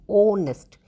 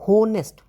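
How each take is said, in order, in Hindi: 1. शब्द की शुरुआत स्वर की ध्वनि से होती है। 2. शब्द की शुरुआत एच की ध्वनि से होती है। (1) "हम इसको ऑनेस्ट बोलते हैं, एच साइलेंट होता है" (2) "यहाँ पे भी हम इसको होनेस्ट नहीं बोलते"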